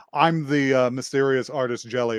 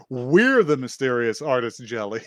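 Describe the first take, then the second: First: Said in the usual way. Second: We're punched as a retold correction; imitated declaration with emphasis on We're; stress on We're. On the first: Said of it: "she goes to say". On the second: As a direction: lean on We're, then let the rest settle. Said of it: "but no, and then she just says".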